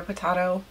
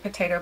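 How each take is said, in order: First: "potato" with the middle vowel as in "father"; mock posh "potato", po-TAH-to; potato with broad ah. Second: "potato" said po-TAY-to; "potato" with the middle vowel as in "day"; American "potato", po-TAY-to; potato with long a. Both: Shown as a demonstration. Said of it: "everybody says it differently".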